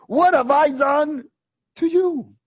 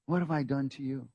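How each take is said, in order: First: High, slow, loud question; loud high take. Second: Quiet repeat. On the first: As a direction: call it out high. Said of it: "contrasted with quiet repeat". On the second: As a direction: let it sink in softly. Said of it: "repeated quietly after loud take". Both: Shown as a demonstration.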